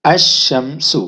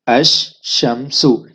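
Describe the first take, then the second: First: अश-शम्सु with lam silent and shin doubled. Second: अश-शम्सु drawn out slowly, shin held long; slow doubled shin. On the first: Teacher demonstrates the sun letter, shin doubled. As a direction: glide अश-शम्सु, lam dropped, shin held long. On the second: Teacher repeats the sun letter slowly, shin doubled. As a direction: stretch अश-शम्सु slowly, no lam. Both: Shown as a demonstration. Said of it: "हमने इसको दो बार बोलना है".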